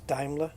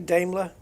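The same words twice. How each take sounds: First: The name is said in the German way. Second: The name is said in a common English way. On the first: This is the correct way to say it. The speaker calls it right. "but it's Daimler" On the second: This is how many people say it. The speaker calls it wrong. "a lot of people say Daimler"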